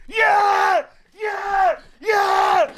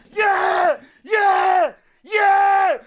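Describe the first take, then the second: No difference in how they are said.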